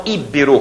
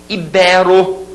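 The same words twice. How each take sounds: First: "íbero" as Í-be-ro; mistaken first-syllable stress. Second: "Ibero" as i-BÉ-ro, middle syllable strong; stress on BE. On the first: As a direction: hit the opening Í of "íbero". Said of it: "como a gente escuta por aí". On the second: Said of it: "Olha as paroxítonas". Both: Shown as a demonstration.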